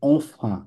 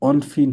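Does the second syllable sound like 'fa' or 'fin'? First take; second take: fa; fin. First: The second syllable sounds like a nasal 'fa'. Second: The second syllable sounds like 'fin'. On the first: The speaker calls it right. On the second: The speaker calls it wrong. "অনফিন হবে না"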